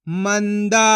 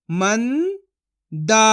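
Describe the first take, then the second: First: Said in the usual way. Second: Manda split as "मं", long pause, "दा"; syllable by syllable. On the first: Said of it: "तो मिलके बन जाएगा". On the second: Shown as a demonstration. Teacher sounds out Manda for learners, syllable by syllable. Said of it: "एक एक अक्षर का उच्चारण करके".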